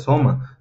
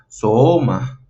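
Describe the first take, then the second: First: The first vowel keeps a level pitch. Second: The first vowel's pitch rises, then falls. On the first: The speaker calls it wrong. "no se pronunciaría soma" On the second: The speaker calls it right. "se pronunciaría soma"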